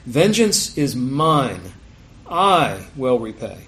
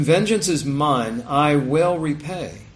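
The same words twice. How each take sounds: First: "mine" and "I" hit hard, slow and loud; stress on MINE and I. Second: Said in the usual way. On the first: Shown as a demonstration. Preacher shows congregation how to read the verse, "mine" and "I" stressed. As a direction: slowly punch "mine", then set "I" apart with heavy weight. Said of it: "you can emphasize different words differently, like". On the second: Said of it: "you can emphasize different words differently".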